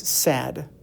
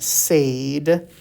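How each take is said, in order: First: The vowel is said as a short sound. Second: The vowel is said as a long sound. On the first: The speaker calls it right. "That is my short vowel sound" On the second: The speaker calls it wrong. "it's not sad"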